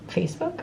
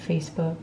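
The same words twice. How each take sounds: First: Facebook? said much higher, rising in disbelief; puzzled question. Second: Said in the usual way. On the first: Real, not acted.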